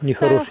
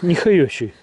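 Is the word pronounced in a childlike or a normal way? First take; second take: normal; childlike. First: The word is pronounced clearly, in the standard way. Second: The word is lisped like a small child's speech.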